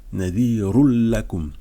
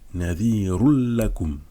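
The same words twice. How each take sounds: The two takes are said the same way.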